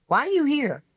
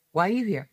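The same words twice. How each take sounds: First: Higher, sharp challenge, imitating the woman; challenging woman. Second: Same question echoed back calmer and level; firing it back. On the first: A woman at the Wiley lecture confronting her, mock-challenging. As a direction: throw the question at her like an accusation. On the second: Retold or imitated. The speaker answering the woman at Wiley, echoing it back coolly. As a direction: turn her question around on her. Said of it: "I looked at her and I went".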